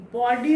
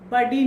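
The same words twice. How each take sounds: First: बॉडी as "baw-dee", first vowel rounded; teacher's model बॉडी with "aw"; correct rounded O. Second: बडी as "buh-dee", short first vowel; emphatic mistaken बडी with "uh"; short unrounded vowel in बडी, like buddy; wrong short vowel. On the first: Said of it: "बॉडी होता है". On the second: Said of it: "बडी नहीं होता". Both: Shown as a demonstration.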